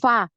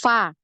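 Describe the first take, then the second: First: The f is made with both lips together. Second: The f is hissed between lip and teeth. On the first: The speaker calls it wrong. "bibir atas ini ketemu dengan bibir bawah ... Tidak terlalu terasa" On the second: The speaker calls it right. "kalau yang benar gini ya ... ada aliran nafasnya"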